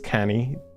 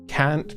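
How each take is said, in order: First: It ends in a Scottish 'nae' sound. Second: It ends in a plain standard English 'n't'.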